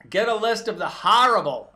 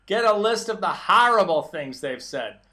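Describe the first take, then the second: First: Said in the usual way. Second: A light, hammed-up posh British Queen's accent, louder; mock Queen's accent. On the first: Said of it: "I'm gonna say it like him". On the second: Mocking the president's tweet in a put-on Queen's accent. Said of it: "I'm gonna say it like him in his Queen's accent".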